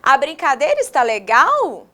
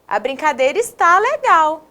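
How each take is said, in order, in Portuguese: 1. É dita com entonação de pergunta. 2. É dita com entonação exclamativa. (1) "eu vou fazer uma pergunta" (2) "agora eu vou exclamar"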